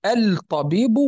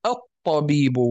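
First: الطبيب with the L clearly sounded, "al-tabiibu"; الطبيب said "al-ta", without doubling the ta; unassimilated lam. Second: الطبيب with silent L, "at-tabiibu"; الطبيب said "at-ta", holding the doubled consonant; assimilated lam. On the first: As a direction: pronounce the lam of الطبيب separately before the ta. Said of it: "هل نقول الطبيب أو الطبيب". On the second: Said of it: "نقول الطبيب". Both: Shown as a demonstration.

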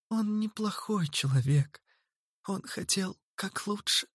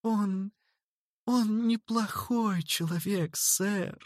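First: Put-on high, soft girl pleading; pitiful plea. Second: Put-on high, soft, slow little girl pleading; pitiful babble. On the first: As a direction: plead softly, almost whispered. Zerlina pleads for brother. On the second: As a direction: stammer it out pitifully. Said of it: "жалостно пролепетала Зерлина". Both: A narrator's reading.

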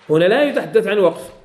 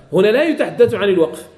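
The two takes are said the same way.

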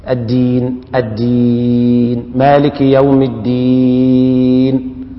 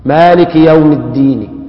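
First: الدين held long, the end stopped dead on a bare sukun, slow; slow Quranic recitation ending on sukun; stopping with sukun. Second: الدين ending on a faint two-beat hint of the kasra; slow recitation with rawm on الدين; stopping with rawm. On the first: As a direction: chant الدين slowly and close it with a full stop on the consonant. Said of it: "هكذا بالسكون". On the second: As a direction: let الدين fade on a whispered two-count kasra. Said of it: "ويكون الروم بحركتين". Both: Shown as a demonstration.

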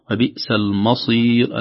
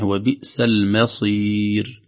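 First: Slow "المصير" with thick, dark "ma"; mistaken heavy mim. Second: Very slow "المصير" with thin, light "ma"; correct light mim. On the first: Teacher shows what some people say, heavy م. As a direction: wrongly thicken the م before ص in "المصير". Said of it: "ربما يقول البعض". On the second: Teacher gives the correct version, thinned م. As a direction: keep the م of "المصير" light before the heavy ص. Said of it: "ولكن الصحيح". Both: Shown as a demonstration.

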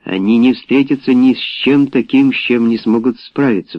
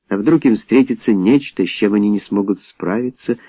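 First: Firm statement, falling on "справиться"; unperturbed rebuttal. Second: Doubtful question, voice rising at "справиться"; worried question. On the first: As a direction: rebut it evenly, closing down on "справиться". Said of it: "Авери оставался невозмутимым". (уверенно, с понижением на "справиться") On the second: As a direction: ask it as a what-if, rising on "справиться". Doubter's worried questions, answered calmly. (с сомнением, вопросом на "справиться") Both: A narrator's reading.

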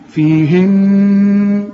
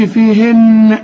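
First: Very slow "فيهن", the final n hummed long; correct stop with ghunna. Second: "فيهن" with the final n popped loose; wrong bounced noon. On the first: Teacher shows correct teaching pause, "فيهن" with sustained hum. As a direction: let the n of "فيهن" ring evenly, no bounce. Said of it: "تقف برضه وتقول". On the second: Teacher warns against qalqala, "فيهن" with bounced n. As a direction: release the n of "فيهن" in a little echo. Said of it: "وتقلقل النون". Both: Shown as a demonstration.

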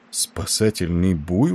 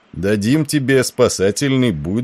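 First: Slow, rising echo in disbelief; astonished, drawn-out query with a rise; surprised question. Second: Said in the usual way. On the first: A narrator's reading. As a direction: draw the words out, puzzled. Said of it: "удивился Николс".

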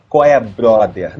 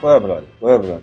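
First: "Qual é, brother?" said slowly with every syllable enunciated; overly careful diction. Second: "Qual é, brother?" run together quickly and slurred; loose carioca diction. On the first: Director showing actors the wrong way, slow and enunciated. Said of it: "Não". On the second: Director showing actors the right way, loose and natural. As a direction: toss off "Qual é, brother?" casually. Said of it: "deixa a dicção falhar pra ficar mais natural". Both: Shown as a demonstration.

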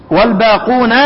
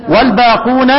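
The two takes are said the same way.

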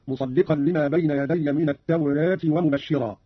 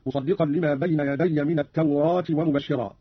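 First: "التوراة" with its long a leaning toward "e"; taqlil. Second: "التوراة" with an open long "aa"; open fath. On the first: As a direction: say "at-tawreet", half-inclined vowel. (تقليل ألف "التوراة" بين الفتح والكسر) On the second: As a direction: say "at-tawraat", the a fully open. (فتح الألف في "التوراة") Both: Shown as a demonstration. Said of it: "بالفتح والتقليل في لفظ التوراة".

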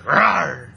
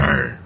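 First: Playful little bear roar; cute rawr. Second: Low growled roar; low rawr. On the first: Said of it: "You can do a bear sound". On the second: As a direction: drop the rawr low like a lion. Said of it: "That's a tiger". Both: Pretend.

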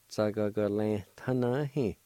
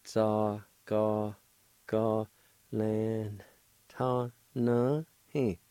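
First: "Za, ga, ga, lan, ta, na, he" run together as one word; connected take of "Za, ga, ga, lan, ta, na, he"; joined-up pronunciation. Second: "Za, ga, ga, lan, ta, na, he" broken into separate syllables; syllable-by-syllable demo. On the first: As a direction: blend "Za, ga, ga, lan, ta, na, he" without gaps. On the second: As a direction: sound out "Za, ga, ga, lan, ta, na, he" piece by piece. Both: Shown as a demonstration. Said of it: "it's pronounced like this".

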